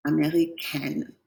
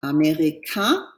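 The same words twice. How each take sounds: First: "américaine" slow and soft, final N clearly sounded; teacher contrasting the two endings. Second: "Américain" slow, rising, ending nasal with no N; teacher contrasting the two endings. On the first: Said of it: "Here it's américaine". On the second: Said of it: "Here it's américain". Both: Shown as a demonstration.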